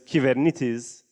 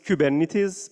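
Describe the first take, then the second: First: It is said with the original Greek pronunciation. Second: It is said with the common English pronunciation. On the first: The speaker calls it right. "the right way of saying that is Kivernitis" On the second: The speaker calls it wrong. "everyone says it's Kubernetes"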